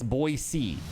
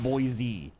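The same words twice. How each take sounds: First: The middle consonant is an S sound. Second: The middle consonant is a Z sound. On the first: The speaker calls it right. "Ain't no Z in, in Boise. It's Boise" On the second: The speaker calls it wrong. "not Boise"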